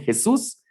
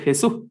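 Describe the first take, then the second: First: The word ends with a clear s sound. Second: The word ends without the s sound.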